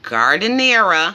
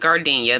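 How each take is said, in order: First: The word is said in full, like giardiniera. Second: The word is shortened to sound like gardenia. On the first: "I never pronounced this correctly, but" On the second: "I always call it gardenia. That's completely wrong"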